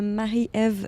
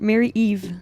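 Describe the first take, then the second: First: The name has a French pronunciation. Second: The name has an English pronunciation.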